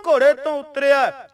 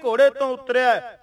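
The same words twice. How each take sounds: The two takes are said the same way.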